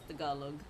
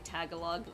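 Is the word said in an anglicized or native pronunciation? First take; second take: native; anglicized. First: The word gets a pronunciation closer to native. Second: The word gets an anglicized, accented pronunciation. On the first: This is closer to how native speakers say it. The speaker calls it right. "no, it's Tagalog" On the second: This is how some other people say it. The speaker calls it wrong. "some people will say Tagalog"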